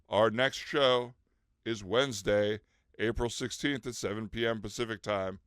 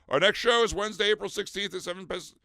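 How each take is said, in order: First: It is said more slowly. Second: It is said too fast.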